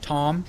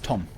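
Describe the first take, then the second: First: The vowel is long. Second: The vowel is short. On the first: This is the English pronunciation. "in English it has a like a long O" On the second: This is the German pronunciation. "and in German it's Tom"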